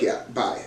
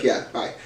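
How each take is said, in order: First: Whispered, softer 'Yeah, bye.'. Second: Said in the usual way. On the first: Retold or imitated. [name] echoes Todd.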